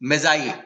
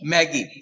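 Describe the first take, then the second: First: The middle consonant is a soft j sound. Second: The middle consonant is a hard g sound. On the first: The speaker calls it right. "Gift of मेजाई" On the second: The speaker calls it wrong. "लेकिन बच्चे उसको क्या पढ़ते हैं?"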